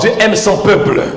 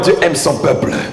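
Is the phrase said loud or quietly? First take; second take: loud; quietly. First: The phrase is said at a louder volume. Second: The phrase is said at a lower volume. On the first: The speaker calls it right. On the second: The speaker calls it wrong.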